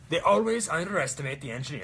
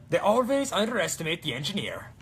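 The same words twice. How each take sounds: First: Put-on Swedish accent. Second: Put-on higher, louder Swedish accent. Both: Cosplayer quoting Torbjorn's Swedish accent line. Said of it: "That's the Swedish accent".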